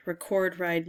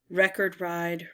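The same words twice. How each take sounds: First: Record ride with re-CORD, stress on second syllable; verb record. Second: Record ride with REC-erd, stress on first syllable; noun record. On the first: While sorting puzzle words, trying record as the verb. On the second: While sorting puzzle words, trying record as the noun. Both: Shown as a demonstration. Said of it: "record could be record or record".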